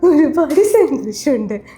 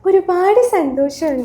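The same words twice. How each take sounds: First: It is said with extra laughter in the voice. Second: It is said in a plain voice. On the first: "ഇങ്ങനെ സംസാരിക്കുമ്പോ ലക്ഷ്മി നക്ഷത്രന്റെ ശബ്ദത്തിലേക്ക് നമുക്ക് പോകാൻ പറ്റും" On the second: "ഒരുപാട് സന്തോഷമുണ്ട് എന്ന് പറയുമ്പോ"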